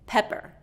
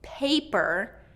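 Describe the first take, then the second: First: The first vowel is a short E sound. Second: The first vowel is a long A sound. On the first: The speaker calls it wrong. "where that vowel is getting shortened" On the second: The speaker calls it right. "paper with a long A"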